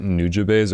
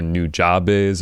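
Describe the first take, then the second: First: Nujabes with a short unstressed "juh" in the middle; first pronunciation. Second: Nujabes with an open "jah" in the middle; alternative pronunciation. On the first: Host checking with guest how it is said, Nujabes as NEW-juh-bays. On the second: Host offering guest another version, Nujabes as new-JAH-bays. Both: Shown as a demonstration. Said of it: "is that how you say it?".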